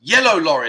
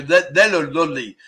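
First: Said in the usual way. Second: YELLOW LORRY muddled into "Lead, yellow lolly"; "Lead, yellow lolly" with L for R, mock struggling; imitated mispronunciation. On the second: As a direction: mimic a tongue-tied learner, L sounds taking over in "Lead, yellow lolly". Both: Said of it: "Because they can't pronounce it".

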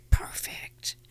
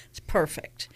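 First: It's perfect in a slow hushed whisper. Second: Said in the usual way. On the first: Acted. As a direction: breathe it's perfect like a secret. Savouring the perfect crystal.

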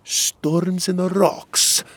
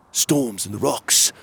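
First: "Storms in the rocks" high, slow and questioning; questioning repeat. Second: Said in the usual way. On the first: A narrator's reading. Magborn echoing the guard's code, "Storms in the rocks" slow and questioning. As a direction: stretch "Storms in the rocks" into a high-pitched query. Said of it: "Magborn repeated".

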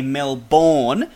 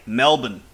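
First: Melbourne said the American way, full "bourne" ending, slowly. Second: Melbourne said the Aussie way, "Mel-bn", second syllable swallowed; Melbourne like a true local, "Mel-bn". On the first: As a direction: say Melbourne with a clear drawn-out "born" at the end. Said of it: "they like to say Melbourne". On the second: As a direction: clip the end of Melbourne to a short "bn". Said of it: "if you wanna sound like a true local there". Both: Shown as a demonstration.

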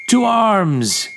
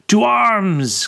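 First: Loud, high battle cry; bellowing. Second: Loud, high alarm call; crying out. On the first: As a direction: roar the call to arms. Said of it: "he bellowed". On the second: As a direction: shout it across the yard. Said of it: "Kasejian cried again". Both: A narrator's reading.

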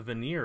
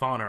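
First: "Vanir" as vuh-NEER, second syllable stressed; unsure pronunciation. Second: "Vanir" as VAH-ner, first syllable stressed; corrected pronunciation. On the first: Host unsure of the Norse name, "Vanir" tentatively as vuh-NEER. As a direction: say "Vanir" with a long ee, rhyming with "near". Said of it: "how did you pronounce it?". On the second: Host adopting the co-host's version, "Vanir" as VAH-ner. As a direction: say "Vanir" with an open ah, ending like "ner". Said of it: "I think that's better". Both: Shown as a demonstration.

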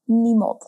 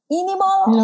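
First: Said in the usual way. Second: Squeaky high mock resignation; high silly voice. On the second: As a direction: pitch it way up, playful.

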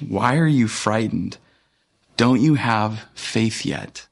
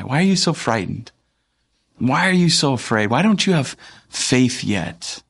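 First: Said in the usual way. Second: Gently teasing question, livelier pitch; twinkle in the eye. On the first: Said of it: "asks them". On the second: Acted. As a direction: ask with a playful twinkle, lingering at the end. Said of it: "saying that with a little bit of, like, a twinkle in his eye".

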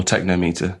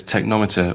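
First: Technometer as TEK-no-MEE-ter; long O and long EE in technometer; techno-meter pronunciation. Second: Technometer as tek-NOM-i-ter; short-O pronunciation. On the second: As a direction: say technometer to rhyme with thermometer. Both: Shown as a demonstration. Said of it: "how to pronounce it".

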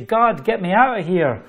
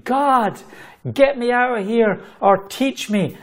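First: Said in the usual way. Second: High-pitched retold plea to God; proclaiming. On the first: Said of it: "put my head in the tank to say". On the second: Overwhelmed new worker begging God for rescue, proclaiming. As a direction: proclaim it high, with urgent emphasis. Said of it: "here I am proclaiming".

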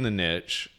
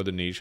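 First: "niche" rhyming with "rich"; short vowel and a "tch" ending on "niche"; alternate pronunciation. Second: "niche" rhyming with "leash"; long "ee" and a soft "sh" ending on "niche"; alternate pronunciation. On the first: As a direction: say "niche" as "nitch". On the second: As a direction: say "niche" as "neesh". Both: Shown as a demonstration. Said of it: "however you wanna pronounce it".

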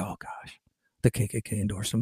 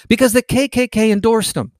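First: Whispered fake shock, mocking them; mock horrified whisper. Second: Said in the usual way. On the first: Mocking the leftists' claim, a fake-shocked whisper. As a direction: hush it like a scandalous secret.

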